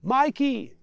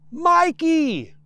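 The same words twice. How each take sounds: First: Said in the usual way. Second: Very loud, high shout of the name; boy bellowing up over the engine; roaring with all his might. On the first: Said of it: "says the boy". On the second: Acted. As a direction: yell it with all your might. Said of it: "roars the boy with all his might".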